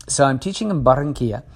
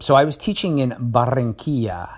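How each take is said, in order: First: Said in the usual way. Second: Barranquilla with a rolled Spanish r. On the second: Shown as a demonstration. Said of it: "You like my Spanish? Rolling my R's?".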